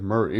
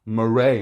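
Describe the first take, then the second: First: Said in the usual way. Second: Murray with the weight on the end, "muh-RAY"; imitated Murray pronunciation. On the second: Summing up Joker's obsession for viewers, mock-fancy Murray pronunciation. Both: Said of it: "saying Murray instead of Murray".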